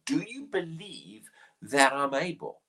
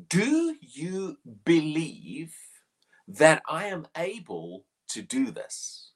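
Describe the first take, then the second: First: A hushed whisper of the question; whispered question to the blind men. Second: Slow, drawn-out question, each word weighed; a slow, searching question to the blind men; solemn slow question. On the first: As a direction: whisper it close, like a secret. Repeating Jesus' question intimately. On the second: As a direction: ask it slowly as Jesus would. Quoting Jesus' question dramatically. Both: Acted.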